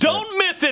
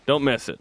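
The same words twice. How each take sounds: First: It is said with lively, excited energy. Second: It is said flatly, without much conviction. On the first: The speaker calls it right. "That's better" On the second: The speaker calls it wrong. "You didn't sound very convincing"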